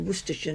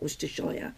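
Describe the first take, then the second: First: The ending is reduced to a short 'sher'. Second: The ending is a full 'shire' like 'shy-er'.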